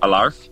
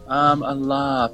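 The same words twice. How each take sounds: First: The R is hard, clearly sounded, American-like. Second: The R is soft, barely sounded. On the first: It misses the play on laughing. The speaker calls it wrong. "the American accents and Canadians and such pronounce it sort of" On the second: It sounds like a play on laughing. The speaker calls it right. "I'd say that'd be a soft R"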